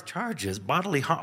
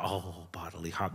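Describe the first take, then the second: First: Disbelieving question, pitched up; incredulous echo. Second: Much softer, lower, understood at last; dawning realization. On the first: Kid overhearing the police, echoing in disbelief. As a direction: repeat it in shock. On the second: Kid realizing the plunger prank, saying it softly and lower. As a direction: let it sink in quietly. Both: Retold or imitated.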